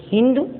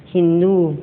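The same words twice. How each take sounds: First: हिंदू with a short final u, rising; mispronounced हिंदू. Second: Said in the usual way. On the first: Shown as a demonstration. (हिंदू को छोटे उ से "हिंदु" बोलना) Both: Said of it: "अशुद्ध और शुद्ध".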